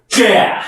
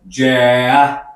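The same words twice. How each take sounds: First: The syllable is said with strong force and breath. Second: The syllable is said plainly, without extra force. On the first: The speaker calls it right. "힘을 팍 주셔야 됩니다" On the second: The speaker calls it wrong. "그냥 쥐야, 쥐야 이렇게 읽는 게 아니라"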